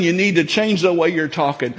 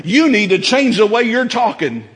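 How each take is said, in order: First: Said in the usual way. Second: Repeated warning with "You" stressed, aimed at the congregation. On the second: Real, not acted. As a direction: press "You" as a direct charge to the listener. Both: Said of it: "I'm talking to you".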